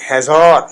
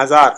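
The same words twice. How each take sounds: First: ہزار said slowly as "hezor"; an e first, then rounded long vowel in ہزار; Persian pronunciation. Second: Said in the usual way. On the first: Shown as a demonstration. Teacher showing the zer sound, Persian pronunciation. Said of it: "اس طرح زیر کا تلفظ جو ہے". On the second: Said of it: "ہم بولتے ہیں ہزار".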